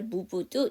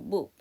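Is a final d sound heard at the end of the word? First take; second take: yes; no. First: The final d sound is clearly pronounced. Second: The final d sound is left off. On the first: The speaker calls it wrong. "이렇게 하지 마시고" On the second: The speaker calls it right. "그냥 move 이렇게 해주시면 되죠"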